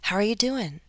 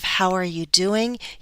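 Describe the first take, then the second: First: The words are run together and reduced. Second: Every word is said fully and clearly. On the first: "This one in fast speech" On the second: "instead of"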